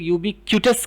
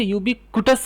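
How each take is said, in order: First: यूबिक्विटस said as yoo-bi-KYOO-tus; यूबिक्विटस with "क्यू" in the middle, yoobikyootus; "kyoo" pronunciation. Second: यूबिक्विटस said as yoo-bi-KOO-tus; यूबिक्विटस with "कु" in the middle, yoobikootus; "koo" pronunciation. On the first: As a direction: say यूबिक्विटस with a y-glide after the k. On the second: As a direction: say यूबिक्विटस with a plain "koo", no y-glide. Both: Shown as a demonstration. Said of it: "तो आप इसकी pronunciation को".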